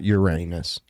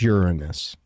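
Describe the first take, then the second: First: The word ends sounding like 'your anus'. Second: The word ends with a weak 'nus' sound. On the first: It is the joking version. The speaker calls it wrong. "which it's not Uranus" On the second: It is the proper version. The speaker calls it right. "it's Uranus"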